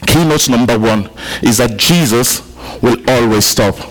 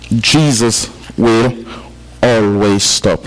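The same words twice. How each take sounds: First: Said in the usual way. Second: Drawn out, every word weighed; slow it right down so it sinks in; slow emphatic repeat. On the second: Shown as a demonstration. Preacher repeating the key point to his congregation, slow and weighty.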